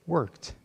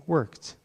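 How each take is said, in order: No difference in how they are said.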